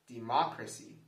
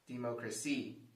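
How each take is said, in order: First: The stress is on the second syllable. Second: The stress is on the fourth syllable. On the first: "If we stress the second syllable" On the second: "If we stress the fourth syllable"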